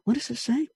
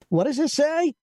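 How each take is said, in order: First: It is mumbled quietly under the breath. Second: It is said aloud, clearly audible. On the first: The words are private thoughts nobody should hear. The speaker calls it right. "Now you're mumbling" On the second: Others nearby can hear the words. The speaker calls it wrong. "then you're going to hear crazy person on aisle 5"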